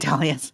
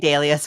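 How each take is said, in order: First: The word is said the American way. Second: The word is said the non-American way. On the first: This is how Americans say it. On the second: This is how people outside America say it. "We don't say dahlias"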